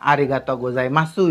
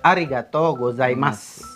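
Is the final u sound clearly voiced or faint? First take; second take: clearly voiced; faint. First: The final u is fully and clearly pronounced. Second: The final u is thin and barely heard. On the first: The speaker calls it wrong. "bukan arigato gozaimasu ya" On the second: The speaker calls it right. "dibacanya tipis"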